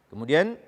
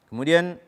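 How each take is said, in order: Both takes have the same delivery.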